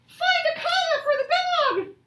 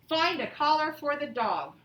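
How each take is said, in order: First: It is said with excitement. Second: It is said plainly, without excitement.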